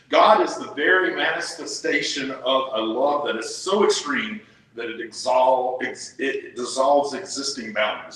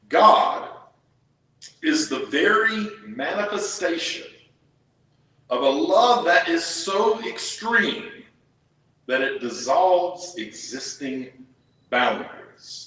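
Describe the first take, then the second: First: It is read at normal speed. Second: It is read more slowly.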